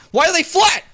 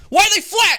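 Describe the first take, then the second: First: Surprised. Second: Higher, louder disbelief; incredulous. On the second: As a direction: ask it again, more astonished. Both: Real, not acted. Same question asked twice.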